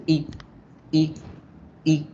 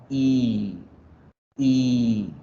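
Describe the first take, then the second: First: "I" as a brief, relaxed vowel cut off quickly; quick separate bursts of short "I"; short English i. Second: "I" held long with a neutral mouth; drawn-out "I", falling away; long English i. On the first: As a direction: say "I" short, mouth neutral. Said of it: "Esa es la I corta". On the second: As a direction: stretch each "I" out, unhurried. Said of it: "la I larga la alargamos". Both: Shown as a demonstration.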